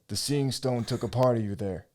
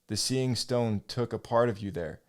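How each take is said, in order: First: It is read in a put-on character voice. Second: It is read in a plain, normal voice. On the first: The speaker calls it right. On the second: The speaker calls it wrong.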